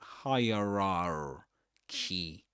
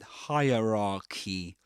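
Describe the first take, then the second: First: The R sound in the middle is pronounced. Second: The R sound in the middle is silent. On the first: The speaker calls it wrong. "you don't say rar" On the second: The speaker calls it right. "but hierarchy"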